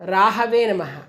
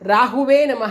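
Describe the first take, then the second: First: The second vowel is pronounced as 'a'. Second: The second vowel is pronounced as 'u'. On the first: The speaker calls it right. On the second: The speaker calls it wrong.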